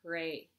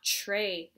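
First: The word begins with a plain t sound. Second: The word begins with a ch sound. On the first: The speaker calls it right. "It's not a CH" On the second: The speaker calls it wrong. "Not tray. It's not a CH"

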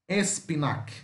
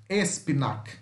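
The two takes are said the same way.

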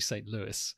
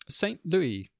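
First: Louis is pronounced the English way. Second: Louis is pronounced the French way. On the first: The speaker calls it right. "but it's actually" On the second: The speaker calls it wrong. "that's the French pronunciation"

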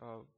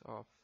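First: The word ends in a soft b-like sound. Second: The word ends in a clear f sound. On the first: The speaker calls it right. "Como el sonido de una B corta al final" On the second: The speaker calls it wrong. "No es una F, no es of"

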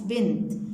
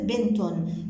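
First: The word ends on a bare t sound. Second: The word ends with a vowel after t. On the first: The word stands at a pause. "خلينا نسكنها عند الوقف" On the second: The word is joined to what follows. "خلينا نحركها عند الوصل"

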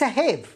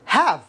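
First: The vowel is an 'ay' sound. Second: The vowel is a short 'a' sound. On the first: The speaker calls it wrong. "وليس هيف" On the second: The speaker calls it right. "تنطق هاف"

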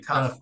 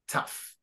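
First: The word ends without an F sound. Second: The word ends with an F sound. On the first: The speaker calls it wrong. "So it'd be pronounced like okay, tough, but no" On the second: The speaker calls it right. "It's pronounced like an F"

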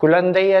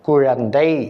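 First: The middle consonant is a plain 'l' sound. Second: The middle consonant is a retroflex 'zh' sound. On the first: The speaker calls it wrong. "குழந்தை அல்ல" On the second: The speaker calls it right. "ழா தான் போட வேண்டும்"

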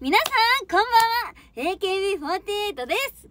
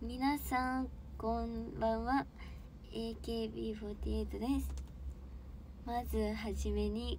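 First: It is said with bright, high energy. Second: It is said with low, subdued energy.

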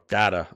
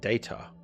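First: The word is said the American way. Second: The word is said the British way.

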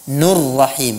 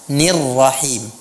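First: The vowel before rrahim is u. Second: The vowel before rrahim is i. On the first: The speaker calls it wrong. "banyak orang membacanya" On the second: The speaker calls it right.

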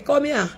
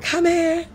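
First: It is said in the usual voice. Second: It is said in a changed, disguised voice.

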